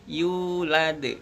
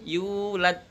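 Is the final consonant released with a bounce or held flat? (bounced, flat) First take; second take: bounced; flat. First: The final d is released with a bouncing echo. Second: The final d is held flat with no bounce. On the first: The speaker calls it right. "tapi yulad" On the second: The speaker calls it wrong. "bukan yulad"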